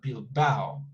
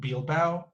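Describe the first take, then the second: First: The word is said with two syllables. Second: The word is said with three syllables. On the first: The speaker calls it right. "but Bilbao. And it's two syllables" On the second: The speaker calls it wrong. "It's not Bilbao"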